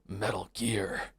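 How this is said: It is said in a gruff, low soldier voice. "Like Snake goes Metal Gear"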